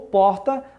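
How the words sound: The R sounds like Rio de Janeiro speech.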